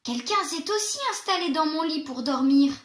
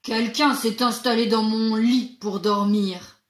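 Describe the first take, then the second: First: It is said in a medium-pitched voice. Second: It is said in a big, deep voice.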